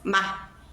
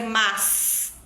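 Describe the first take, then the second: First: The final S sound is dropped. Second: The final S sound is pronounced.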